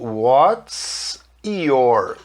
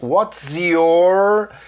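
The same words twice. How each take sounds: First: The words are separated, with a clear s sound. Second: The words are linked, with a z sound. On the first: "quando eu falo pausado, o S fica com som de S" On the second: "quando eu faço a emenda falando S junto com Y, fica com som de Z"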